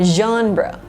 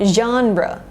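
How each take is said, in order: The two takes are said the same way.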